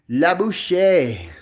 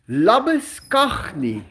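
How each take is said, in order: First: It is said with the original French pronunciation. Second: It is said with a local South African pronunciation. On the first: "That is supposed to be" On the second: "that is pronounced"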